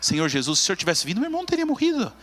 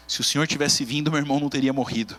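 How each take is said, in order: First: Voz subindo aguda, em lamento sentido; lamento choroso. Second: Said in the usual way. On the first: Shown as a demonstration. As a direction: diga como quem chora a perda, subindo no fim. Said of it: "Ela diz assim". (Maria aos pés de Jesus, lamentando chorosa) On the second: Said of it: "Maria diz isso de um jeito diferente".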